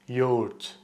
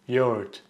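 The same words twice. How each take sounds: The two takes are said the same way.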